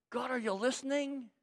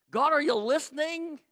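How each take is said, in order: First: Soft, searching plea; quiet appeal to God; doubting prayer. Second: High, insistent question; urgent, high-pitched plea; pounding on heaven's door. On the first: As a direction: ask gently, unsure anyone hears. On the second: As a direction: press God for an answer in a raised voice. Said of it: "he starts pounding on heaven's door". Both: Acted.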